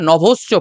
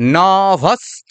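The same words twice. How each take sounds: First: The vowels are said with an 'o' sound. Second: The vowels are said with an 'a' sound. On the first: The speaker calls it wrong. "বাঙালিরা নভশ্চ পড়ি" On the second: The speaker calls it right. "আমরা কি বলবো?"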